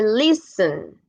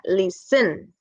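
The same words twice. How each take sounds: First: Listen rising on LIS, then falling; LISten, stressed at the beginning; stress on first syllable. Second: Listen with the weight moved onto SEN; mis-stress listen as lisTEN; wrong stress on final syllable. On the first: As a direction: lift and stretch the start of listen. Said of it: "Como que sube un poquito aquí". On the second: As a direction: demo of listen stressed at the end. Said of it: "no está al final". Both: Shown as a demonstration.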